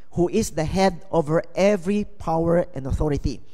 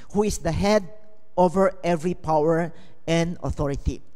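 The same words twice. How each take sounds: No difference in how they are said.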